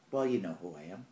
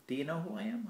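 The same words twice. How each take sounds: First: Said in the usual way. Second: "Do you know who I am?" asked high, rising on "am"; questioning tune. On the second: Real, not acted. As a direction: lift "am" as a real question.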